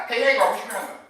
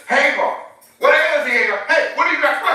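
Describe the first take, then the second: First: Casual angel. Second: High, loud mock angel, blunt and casual. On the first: Retold or imitated. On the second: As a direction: ham up a streetwise angel calling her name. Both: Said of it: "does not sound like an angelic question".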